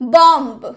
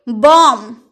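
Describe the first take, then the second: First: The final b sound is pronounced. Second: The final b sound is silent. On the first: The speaker calls it wrong. "अगर आप नहीं जानते होंगे कि बी इसमें silent है तो आप क्या बोलिएगा" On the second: The speaker calls it right. "बी तो साइलेंट है तो हम क्या बोलेंगे"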